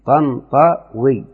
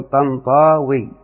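First: طنطاوي very slowly as "Tan - Ta - wii", short middle a; alif turned to waw. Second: طنطاوي with a long held aa, "Tan-Taaa-wii"; slow طنطاوي, dwelling on the alif; added long alif. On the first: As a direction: sound out طنطاوي in three separate beats. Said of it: "أو نقلبها إلى واو". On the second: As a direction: stretch the middle a of طنطاوي before wii. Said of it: "أو نزيد ألف قبلها". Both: Shown as a demonstration.

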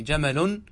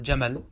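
First: "جمل" said jamalun, with the -un ending; full case ending. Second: "جمل" said jamal, ending on a bare l; pause with sukun. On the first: Teacher gives the word before pausing, "جمل" said jamalun with full ending. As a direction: sound out the final -un on "جمل". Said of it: "فتقول في جمل". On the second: Teacher shows the pause form, "جمل" ending in vowelless l. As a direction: drop the ending, stop "جمل" on the l. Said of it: "هذا بالسكون". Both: Shown as a demonstration.

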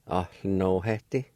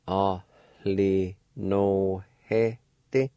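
First: Said in the usual way. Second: Ahli no he te stretched slowly with the H breathed; slow demo. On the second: Shown as a demonstration. Teacher models the aspirated word slowly for learners. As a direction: say Ahli no he te slowly, letting the H be heard. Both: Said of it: "an aspirated sound like this".

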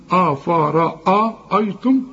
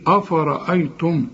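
First: أفرأيتم very slow, with a long ra; slow drawn form. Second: أفرأيتم quick, with a plain hamza; student's version. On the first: Teacher exaggerating the student's reading, slow and drawn out. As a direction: drag out the ra in أفرأيتم. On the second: Teacher repeating the student's first try, plain hamza. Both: Shown as a demonstration. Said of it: "قلت الأول إيه؟".

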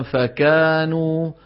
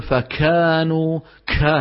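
First: "فكانوا" slow, kaf with only a slight breath; correct light kaf. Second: "فكانوا" with a heavy puff after the k; exaggerated kaf breath. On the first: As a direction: keep the k of "فكانوا" gentle, vowels held. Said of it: "المفروض نقول مثلًا". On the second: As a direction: overdo the aspiration on "كا". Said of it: "ما نقول". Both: Shown as a demonstration.

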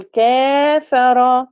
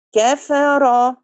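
First: كافر with a full long a after the كاف; the wrong example, a held long a; wrong long vowel. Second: كفر slow, the a short; كفر, clipped short a; correct short fatha. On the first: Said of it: "ما ينفعش أقول كافر". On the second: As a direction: say كفر with a half-length a. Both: Shown as a demonstration.

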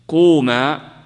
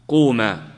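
First: Loud demo command. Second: Said in the usual way. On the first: Shown as a demonstration.

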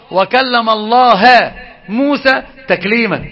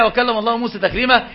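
First: الله said as "Allaha", the object, slow and stressed; distorted reading. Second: Said in the usual way. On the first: Retold or imitated. Teacher imitates al-Marisi's twisted reading for his students, slow and stressed. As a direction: drag out "الله" with a final "a", as al-Marisi misread it. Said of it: "قال". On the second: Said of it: "شوف التحريف في دي".

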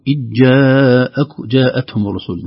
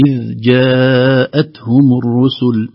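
First: إذ جاءتهم with a jolted, echoing dhal; slow, with a knock on the dhal; wrong bounced dhal. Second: Very slow, the dhal eased out gently; gentle dhal. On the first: Teacher models the wrong bounced dhal. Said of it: "لا نقول". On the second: Teacher recites the gentle dhal in إذ جاءتهم. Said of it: "لكن نخرجها بلطف". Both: Shown as a demonstration.

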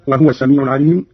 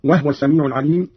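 First: Said in the usual way. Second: وهو said "wahwa", no vowel on the h; وهو in two syllables, wah-wa; silent-vowel ha. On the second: Shown as a demonstration. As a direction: close the h in وهو straight into w. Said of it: "بإسكان الهاء في هذه الضمائر".

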